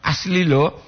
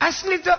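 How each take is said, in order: First: Restrained tune on "Asli lo"; contrasting intonation. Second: "Asli to" leaping very high; high-pitched tune on "Asli to"; exaggerated intonation. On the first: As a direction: say "Asli lo" near the usual pitch. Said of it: "intonasi lo". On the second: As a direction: sing out "Asli to" at the top of the voice's range. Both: Shown as a demonstration.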